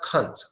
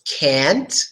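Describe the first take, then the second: First: The word is said in a British accent. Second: The word is said in an American accent.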